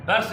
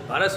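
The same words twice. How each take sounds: First: बर्स as one syllable, "bars"; no vowel after the r in बर्स; mispronunciation demo. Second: बरस as two syllables, "ba-ras"; short a after the r in बरस; correct pronunciation. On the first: Teacher rejecting it for pupils, mispronunciation demo. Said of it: "ये बर्स नहीं होता". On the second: Teacher correcting pupils, correct pronunciation. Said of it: "ये बरस होता है". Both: Shown as a demonstration.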